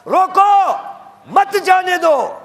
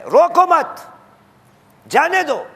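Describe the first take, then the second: First: "روکو" high and loud, pause, then a slow "مت جانے دو"; pause after روکو. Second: "روکو مت" run together high, a clear break, then "جانے دو"; pause after مت. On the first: Preacher gives God's command, pausing after روکو. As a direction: cry روکو alone, then join مت to جانے دو. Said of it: "اور خدا کیا کہہ رہا ہے؟". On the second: Preacher gives the taught version, pausing after مت. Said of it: "ہمیں یہی سکھایا گیا ہے". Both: Shown as a demonstration.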